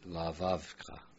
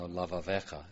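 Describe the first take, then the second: First: The vowel before the last syllable is dropped. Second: The vowel before the last syllable is pronounced. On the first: The speaker calls it wrong. "sometimes when you hear the recordings, though, they might say Lavavka" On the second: The speaker calls it right. "That's a vocal shiva. ... because it's a long vowel"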